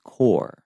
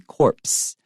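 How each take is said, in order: First: The word ends without any ps sound. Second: The word ends with a clear ps sound. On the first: The speaker calls it right. "the P S are not pronounced, so it's just core" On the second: The speaker calls it wrong. "If you pronounced it in an American English way, it would be corpse"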